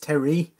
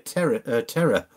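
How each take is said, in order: First: The name ends with an 'ee' sound. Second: The name ends with an 'or' sound. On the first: The speaker calls it right. "I've been mispronouncing your name. So it's Terry" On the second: The speaker calls it wrong. "I keep calling you Terror, because I don't mean Terror as in Terror, like T-E-R-R-O-R"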